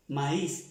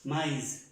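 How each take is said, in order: First: Maíz with the a and the i both said clearly, ma-ís; Maíz, each vowel sounded, i not merged into e; French maïs, two vowels. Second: Maíz said the French way, "mais" with no accent on the í; French word maíz, said like "mè" gliding in one syllable; French maïs. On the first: Teacher showing that the trema keeps the i in Maíz, pron. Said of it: "Aquí ya no puedo decir". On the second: Teacher demonstrating maíz in French to Spanish speakers, French pronunciation. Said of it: "en francés". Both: Shown as a demonstration.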